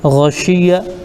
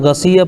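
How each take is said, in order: First: It has a thick gh and an sh sound. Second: It has a plain g and an s sound. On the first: The speaker calls it right. "गैन को मोटा पढ़ना है और शीन को सही अदा करना है" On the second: The speaker calls it wrong. "अगर ये गसिया पढ़ दिए तो गलत हो जाएगा"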